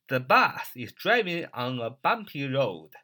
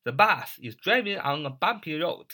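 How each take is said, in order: First: The bus is driving on a bumpy road read out slowly for learners to copy; slow model reading. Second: Said in the usual way. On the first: Shown as a demonstration. Teacher reading the example sentence slowly for students. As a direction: spell it out at a slow teaching pace. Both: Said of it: "你要说".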